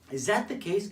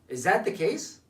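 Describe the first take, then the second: First: The question is asked in a soft, gentle tone. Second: The question is asked in a hard, accusing tone. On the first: The asker assumes good intent and invites an explanation. The speaker calls it right. "notice about my tonality and my body language" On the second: The asker is confronting the listener about wrongdoing. The speaker calls it wrong. "the tonality was different"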